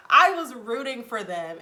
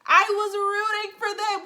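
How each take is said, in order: First: Said in the usual way. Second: High, loud outburst of dismay; hammed-up, high-pitched frustrated yell; exasperated shout. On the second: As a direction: yell it like a let-down fan. Mock outburst over failed couple.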